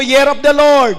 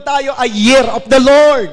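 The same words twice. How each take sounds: First: Loud call to repeat; congregation repeat. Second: Loud, slow proclamation; preached declaration. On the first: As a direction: lead the crowd to say it back. (malakas na pag-uulit ng kongregasyon) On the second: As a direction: proclaim it with full force. (malakas at mabagal na pagpapahayag) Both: Real, not acted. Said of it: "Sabi mo".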